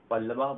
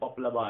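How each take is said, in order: First: It is said with a double l, no p. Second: It is said with a p before the l. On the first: The speaker calls it wrong. "पल्लवा बोल देते हैं" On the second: The speaker calls it right. "वो नहीं बोलकर पपलवा है"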